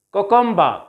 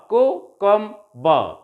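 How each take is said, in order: First: Said in the usual way. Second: Cucumber drawn out slowly, each syllable clear; teacher slowing cucumber down for counting; slow syllable drill. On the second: Shown as a demonstration. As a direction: model cucumber slowly for the class to repeat. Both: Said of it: "recite them after me".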